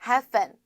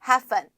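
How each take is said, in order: Both takes have the same delivery.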